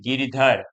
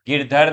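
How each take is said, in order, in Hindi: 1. नाम बीच के स्वर के साथ बोला जाता है। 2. नाम बीच के स्वर के बिना बोला जाता है। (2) "गिरधर नहीं"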